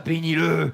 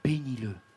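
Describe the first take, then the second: First: It is said in a grudging, resentful tone. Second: It is said in a warm, sincere tone. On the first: The blessing is not really meant. The speaker calls it wrong. "Vous avez déjà béni quelqu'un, vous aussi, comme ça?" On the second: The blessing is truly meant from the heart. The speaker calls it right. "Quand je dis bénis-le, Seigneur, bénis-le. Gracie-le. Sauve-le. Là, ça change tout"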